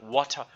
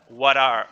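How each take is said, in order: First: The T is clearly and firmly pronounced. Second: The T is a quick tongue flap. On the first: "O inglês britânico ele falaria um T mais marcado" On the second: "flap teeth, flap"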